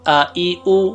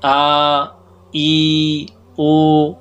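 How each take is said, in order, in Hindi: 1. स्वर छोटे हैं और एक ही सांस में बोले जाते हैं। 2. स्वर खिंचे हुए हैं और लंबे करके बोले जाते हैं। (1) "फिर तीनों को एक सांस में पढ़ना है।" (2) "खींचने से बचाना चाहिए"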